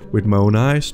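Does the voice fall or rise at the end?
rise. It is said as a question, rising.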